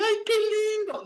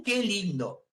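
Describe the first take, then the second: First: Much higher sweet gushing coo; cooing clerk. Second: Said in the usual way. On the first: Retold or imitated. Pharmacist cooing over the newborn, high sweet gush. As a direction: gush like a charmed shop clerk. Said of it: "Entonces va a decir". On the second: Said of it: "Ningún".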